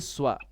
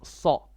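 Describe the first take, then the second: First: The consonant is followed by a rounded w-glide. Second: The consonant is heavy with no rounded glide. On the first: The speaker calls it wrong. "Don't say swa. You're making like a uh, dhamma with a swa" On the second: The speaker calls it right. "No, it's sa. Sa. Heavy"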